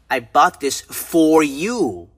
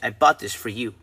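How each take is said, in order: First: The word 'for' is full and emphasized. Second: The word 'for' is reduced to 'fur'. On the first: It was bought for you and nobody else. "the proper way of pronouncing it, for, is used for emphasis" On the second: It is a plain neutral statement. "if you're talking normal, then you would say"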